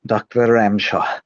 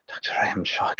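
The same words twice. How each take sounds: First: Said in the usual way. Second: Whispered under the breath, unvoiced; muttering the name under his breath to steady himself. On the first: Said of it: "get into the character of Doctor Ramshaw". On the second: Shown as a demonstration. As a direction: whisper the name to yourself, psyching up. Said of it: "muttering under my breath".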